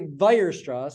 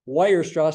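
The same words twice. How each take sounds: First: The name begins with a V sound. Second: The name begins with a W sound. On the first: The speaker calls it right. "W sounds like a V" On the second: The speaker calls it wrong. "don't say Weierstrass"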